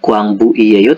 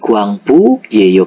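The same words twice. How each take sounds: First: The ending has an extra 'i' syllable before 'eyo'. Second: The ending is a single contracted 'yeyo' syllable. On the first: The speaker calls it wrong. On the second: The speaker calls it right. "karena huruf terakhirannya adalah u ya, vokal"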